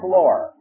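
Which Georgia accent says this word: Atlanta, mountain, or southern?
Atlanta. It is said with a clear final R. The speaker is from the Atlanta area. "In the Atlanta area, it's the floor"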